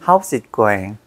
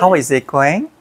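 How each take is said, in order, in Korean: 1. How와 is가 짧은 한 음절로 합쳐져요. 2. How와 is를 각각 온전한 두 단어로 발음해요.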